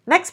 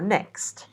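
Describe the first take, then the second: First: The final T sound is dropped. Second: The final T sound is clearly pronounced. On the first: It is said quickly and naturally in connected speech. "the T in next isn't really pronounced" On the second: It is said as an isolated word. "would be pronounced fully in the isolated word"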